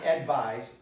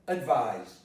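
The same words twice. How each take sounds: First: The stress is on the first syllable. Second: The stress is on the second syllable. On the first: The speaker calls it wrong. "not advise" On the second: The speaker calls it right. "The stress vise"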